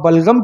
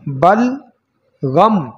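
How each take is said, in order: First: It is said as one joined word. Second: It is split into two separate parts. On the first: Old age came from phlegm. The speaker calls it wrong. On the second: Old age came rather from grief. The speaker calls it right.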